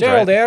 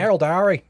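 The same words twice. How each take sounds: First: It is said in the speaker's usual accent. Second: It is said in a put-on Australian accent.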